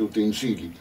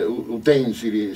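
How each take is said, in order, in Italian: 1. L'accento è sulla terza sillaba. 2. L'accento è sulla seconda sillaba. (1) "si dice utensili" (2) "sento dire utensili"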